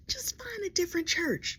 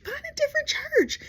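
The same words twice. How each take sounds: First: Hushed urging; whispered advice. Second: Very high, pleading "different"; squealed advice. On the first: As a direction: whisper it firmly. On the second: Comedian urging James again, very high. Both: Real, not acted.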